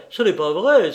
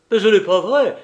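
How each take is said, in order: First: Loud repeated denial, falling at the end; angry outcry. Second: High, loud furious denial; angry outcry. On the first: Banker repeating his angry denial to Lupin. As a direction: insist again, still shouting. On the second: Banker shaking his fist at Lupin, crying out angrily. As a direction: shout it at him, fist raised. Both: A narrator's reading. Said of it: "s'écria Engelmann en lui montrant le poing".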